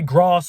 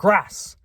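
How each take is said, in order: First: The word is said in a southern English accent. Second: The word is said in a northern English accent. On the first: "I say grass" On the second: "and not"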